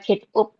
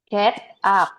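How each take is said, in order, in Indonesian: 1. Vokal di 'up' terdengar seperti 'oo'. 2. Vokal di 'up' terdengar seperti 'ah'. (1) "bukan get up" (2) "get up ya"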